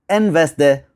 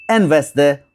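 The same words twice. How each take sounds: The two takes are said the same way.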